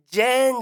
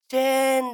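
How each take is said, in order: First: ジェーン with a voiced J at the start, like the name Jane; wrong pronunciation. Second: チェーン with a crisp unvoiced ch at the start; correct pronunciation. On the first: Host quoting the kids' mistaken ジェーン, voiced J. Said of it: "ジェーンじゃないよ". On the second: Host correcting the kids with a crisp チェーン. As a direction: say チェーン clearly with a sharp ch. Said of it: "チェーンだよ". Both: Shown as a demonstration.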